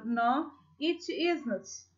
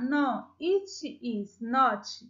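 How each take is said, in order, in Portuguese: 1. Is and not são unidos em uma só palavra. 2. Is and not são ditos como palavras separadas. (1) "eu falo no, it isn't" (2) "Em vez de eu falar no, it is not"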